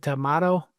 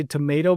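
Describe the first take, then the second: First: TOMATO with a MAH in the middle; alternative tomato. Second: TOMATO with a MAY in the middle; common tomato. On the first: Asking co-host about the other way, tomato with broad ah. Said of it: "have you ever said tomato?". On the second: Telling co-host what most people say, tomato with long a. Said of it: "most people say tomato". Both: Shown as a demonstration.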